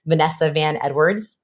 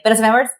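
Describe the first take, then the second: First: Said in the usual way. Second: Blurted higher and louder in a nervous hurry; hurried, slurred-together self-introduction; rushed name. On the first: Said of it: "I have a long name". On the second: Shown as a demonstration. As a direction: race through the name as one word. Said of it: "I'm working on the rushing through".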